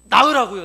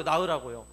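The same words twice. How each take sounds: First: Loud preaching exhortation. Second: Said in the usual way. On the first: Real, not acted. Preacher to congregation, exhorting them to bear spiritual children, in a loud shout. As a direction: shout it out, much louder and higher.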